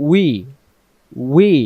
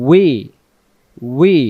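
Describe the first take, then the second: Both takes have the same delivery.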